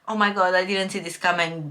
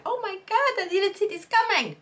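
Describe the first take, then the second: First: Unimpressed mock surprise, near usual pitch; indifferent reaction. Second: Much higher-pitched gushing shock; mock astonishment. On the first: Reader reporting her real reaction to the twist, indifferent. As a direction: say it as if you couldn't care less. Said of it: "but I couldn't care less". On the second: Reader imagining a plot twist that landed, mock astonishment. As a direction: act out a shocked reader's high squeal. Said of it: "then I would be like".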